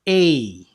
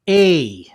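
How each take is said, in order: The two takes are said the same way.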